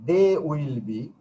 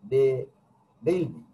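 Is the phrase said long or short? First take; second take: long; short. First: The full form is said, longer. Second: The contracted form is said, shorter. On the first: "long pronunciation" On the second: "short pronunciation"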